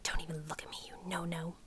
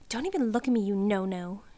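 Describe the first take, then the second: First: Hushed, softer whisper; under her breath. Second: Louder sneer. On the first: Cindy mutters to the narrator in class, hushed and low. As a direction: mutter it so the teacher won't hear. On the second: Cindy snubs the narrator across the desks, a loud sneer. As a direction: spit it out at her, not hushed. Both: Acted. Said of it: "low under her breath".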